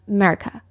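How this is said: It is said with a folksy Southern pronunciation.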